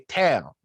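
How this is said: The word is squeezed into one short syllable. "they say tail"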